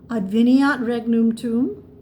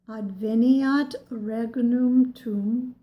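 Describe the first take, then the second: First: It is said at normal speed. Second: It is said very slowly.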